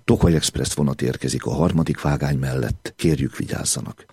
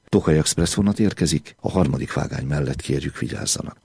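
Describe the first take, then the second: First: The pause falls after the word 'mellett'. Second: The pause falls after the word 'érkezik'. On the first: The train is arriving alongside the track, not on it. The speaker calls it wrong. "De megint csak egy helytelenül tartott szünet okozza a galibát" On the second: Passengers by track three are asked to take care. The speaker calls it right. "semmit nem kell megváltoztatnunk"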